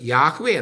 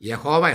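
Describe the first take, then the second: First: The name is said with two syllables. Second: The name is said with three syllables. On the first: The speaker calls it right. "ഉച്ചരിക്കേണ്ടത് യാഹ്വേ എന്നാണ്" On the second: The speaker calls it wrong. "യഹോവ എന്നല്ല"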